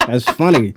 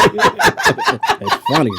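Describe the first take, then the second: First: Said in the usual way. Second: High, drawn-out laugh through the words. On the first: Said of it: "repeats flat". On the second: Real, not acted. Co-host laughing hard at the pun. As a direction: crack up mid-line. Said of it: "laughing take".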